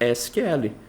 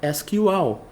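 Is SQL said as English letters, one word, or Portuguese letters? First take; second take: Portuguese letters; English letters. First: Each letter is spelled out with Portuguese letter names. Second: Each letter is spelled out with English letter names. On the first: "No português, você vai ter o hábito de falar o acrônimo S Q L" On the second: "No inglês técnico... a pronúncia foi feita de forma correta"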